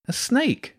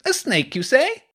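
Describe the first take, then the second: First: High-pitched disbelief, normal volume; incredulous. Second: Put-on high, booming boy's question. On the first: Jenny reacting to James's snake encounter, incredulous. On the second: Hugo butting in about the snake, booming. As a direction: boom out the question, pitched high. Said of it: "Hugo's voice boomed". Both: A narrator's reading.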